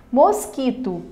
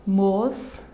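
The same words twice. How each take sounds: First: Said in the usual way. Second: "Mosquito" in separate beats: mos, qui, to; long pauses between the syllables of "Mosquito". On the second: Shown as a demonstration. Teacher showing a three-syllable word, syllable by syllable. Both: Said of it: "Também é uma palavra trissílaba".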